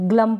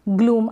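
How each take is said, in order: First: The vowel is a short uh sound. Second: The vowel is a long oo sound. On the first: The speaker calls it wrong. "Double ओ को अ नहीं पढ़ेंगे, ग्लम पढ़ दे, नहीं" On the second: The speaker calls it right. "बड़े ऊ की मात्रा"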